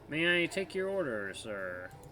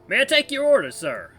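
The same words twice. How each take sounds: First: The voice is flat and almost robotic. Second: The voice is lively with normal question intonation. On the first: The speaker calls it right. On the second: The speaker calls it wrong.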